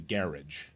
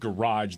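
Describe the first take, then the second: First: It is said with a British accent. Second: It is said with an American accent. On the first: "they'd say garage. You know, they'd pronounce it that way" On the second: "instead of garage"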